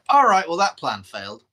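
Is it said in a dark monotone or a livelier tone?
livelier. It is said in a livelier, varied tone.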